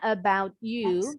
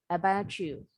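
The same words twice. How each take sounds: First: The two words are separated with a break. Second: The t and y blend into a ch sound. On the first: "Boleh sih bilangnya about you, tapi supaya nggak ada jeda nih" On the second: "ini bunyinya jadi C H"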